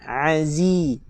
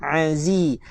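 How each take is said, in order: No difference in how they are said.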